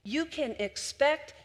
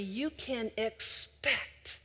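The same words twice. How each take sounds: First: Higher, lifted repeat; rising emphasis. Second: Slow and deliberate; slow, weighty build. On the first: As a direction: lift the repeat up with conviction. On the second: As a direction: lay each word down slowly. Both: Shown as a demonstration. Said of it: "And when you listen carefully".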